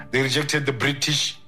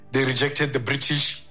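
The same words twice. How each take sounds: The two takes are said the same way.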